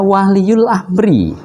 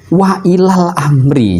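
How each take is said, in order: First: The phrase is run together as 'waliyul amri'. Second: The phrase is split as 'wa ilal amri'. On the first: The speaker calls it wrong. "dia membaca waliyul amri" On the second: The speaker calls it right. "Ini yang benar adalah wa ilal amri"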